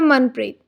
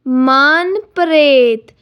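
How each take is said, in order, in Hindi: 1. यह भारतीय लहजे में बोला गया है। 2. यह इतालवी लहजे में बोला गया है। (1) "अगर मैं इंडियन एक्सेंट में बोलूँ" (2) "इटालियन में ... इसे साउंड किया जाता है मानप्रेत"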